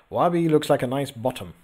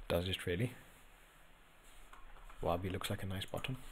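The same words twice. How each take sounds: First: Said in the usual way. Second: Much softer and lower, to yourself; hushed, pondering repeat; doubtful musing. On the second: Real, not acted. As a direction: quietly mull over the claim. Repeats comment to himself, doubting.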